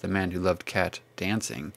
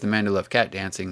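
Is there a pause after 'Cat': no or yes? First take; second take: yes; no. First: There is a break between Cat and Dancing. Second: Cat dancing is said as one unbroken phrase.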